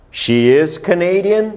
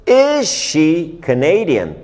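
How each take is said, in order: First: "She is Canadian" slow, climbing to a high "Canadian"; model statement for repetition. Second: Slow "Is she Canadian", "Is" high and stretched, falling at the end; model question for repetition. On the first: Teacher modelling a sentence to repeat, slow rising "She is Canadian". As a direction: say "She is Canadian" slowly, lifting it at the end. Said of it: "repitam comigo novamente as quatro frases".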